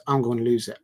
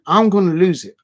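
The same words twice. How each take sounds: First: Said in the usual way. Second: Much louder, higher repeat of the warning; riled-up outburst. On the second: Real, not acted. Streamer warning rival fans he'll crack, loud and exasperated. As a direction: burst out as if about to snap.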